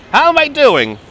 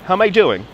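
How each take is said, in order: First: Higher, louder Koch-style How am I doing; Mayor Koch catchphrase. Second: Said in the usual way. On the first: Pretend. Guide imitating Mayor Koch's catchphrase for viewers. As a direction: belt out the mayor's famous line. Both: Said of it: "You met Mayor Koch".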